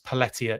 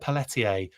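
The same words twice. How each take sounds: First: The name is pronounced in an English style. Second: The name is pronounced in a French style. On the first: The speaker calls it right. "It's Pelletier" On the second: The speaker calls it wrong. "I said Paul's name wrong. ... I try and go real French on it"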